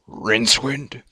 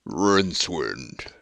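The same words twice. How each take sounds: First: It is said in a plain voice. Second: It is said in a deep, heavy voice.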